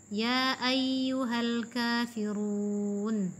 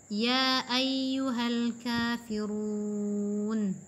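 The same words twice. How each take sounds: Both takes have the same delivery.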